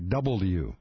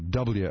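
First: The letter is said fully as double U. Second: The letter is clipped to two syllables, dubya. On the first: The speaker calls it right. "You say W. So it's like double U" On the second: The speaker calls it wrong. "you don't say W"

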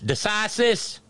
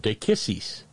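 First: The middle consonant is a soft s sound. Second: The middle consonant is a hard k sound. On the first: The speaker calls it wrong. "the one thing it is not is decisis" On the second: The speaker calls it right. "That C is a K sound"

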